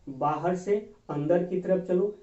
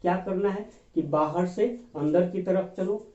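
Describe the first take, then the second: First: "बाहर से अंदर की तरफ चलो" धीरे-धीरे, "से" पर ज़ोर देकर; slow, emphatic repeat. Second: Said in the usual way. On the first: Shown as a demonstration. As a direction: slowly spell out the rule, leaning on से. (धीमे, ज़ोर देकर दोहराना)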